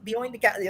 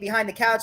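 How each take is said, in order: First: The h in behind is dropped, Cockney style. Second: The h in behind is clearly pronounced. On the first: "they drop H's" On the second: "instead of saying behind the couch"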